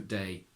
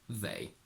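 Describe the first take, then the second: First: The word begins with a d sound. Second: The word begins with a th sound. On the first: "Sometimes Cockney pronounces it with the d instead" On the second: "usually they tend to keep it like a normal the"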